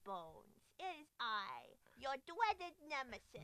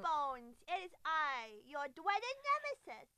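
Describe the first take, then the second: First: A baby voice that sounds much more evil. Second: A baby voice that sounds only mildly evil.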